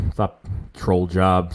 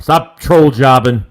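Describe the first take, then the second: First: Said in the usual way. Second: Slow, much louder, drawn-out repeat. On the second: Shown as a demonstration. Host repeats a chat comment back to viewers, loud and slow. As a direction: call the phrase out loud to the chat.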